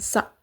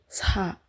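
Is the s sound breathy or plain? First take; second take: plain; breathy. First: The s is said plainly without extra air. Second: The s is said with a puff of air. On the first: The speaker calls it wrong. "bukan sa" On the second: The speaker calls it right. "Ada udaranya ya guys, ... tapi sa"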